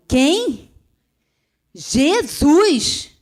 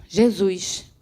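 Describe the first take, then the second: First: Jesus cried out loud and high, with force; woman hearing the answer, crying Jesus with force; forceful Jesus. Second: Said in the usual way. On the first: Retold or imitated. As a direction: shout the name Jesus with power. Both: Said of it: "falei aquele Jesus com tanta força".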